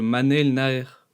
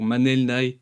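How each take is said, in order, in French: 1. Le nom de famille commence par n et finit par r. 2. Le nom de famille commence par n sans r final. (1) "au lieu de Manel Naer" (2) "ou Manel Nae"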